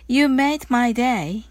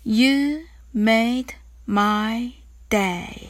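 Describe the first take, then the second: First: The phrase is spoken at a fast pace. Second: The phrase is spoken at a slow pace. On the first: "次に早く言ってみましょう" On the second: "ゆっくり練習してみましょう"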